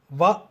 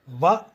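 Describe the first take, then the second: First: The syllable begins with a lip-teeth V sound. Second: The same.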